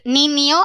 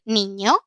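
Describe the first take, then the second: First: An n plus a clear i sound. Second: A single ñ sound with no i. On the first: "pasamos de decir niño" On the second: "a decir niño"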